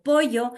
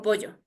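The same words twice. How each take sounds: First: "pollo" as poyo, with a Y sound; coast-style "pollo" with Y; coastal pronunciation. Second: "pollo" dictated with the Sierra double L; highland pronunciation. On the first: Retold or imitated. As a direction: imitate the student's "pollo", double L said as Y. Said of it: "escribía pollo con Y". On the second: Shown as a demonstration. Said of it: "yo le digo pollo".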